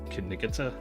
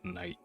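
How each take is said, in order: First: The K and GH sounds are pronounced. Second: The K and GH sounds are silent. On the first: This is how the word was said in older English. "All those other letters used to be pronounced" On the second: This is how the word is said today. "so now it's"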